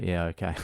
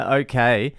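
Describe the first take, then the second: First: Low, soft, feeble mock agreement; feigned sick. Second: Lightly mimicked eager okay, rising; perked-up kid. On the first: Son at school gate answers dad, feigning sick. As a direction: play a kid still faking illness, barely audible. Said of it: "he's still got the fake sick face". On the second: Son at the gate about to run off, perked-up agreement. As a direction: imitate a kid suddenly recovered, with a lift at the end. Son perks up, then runs off.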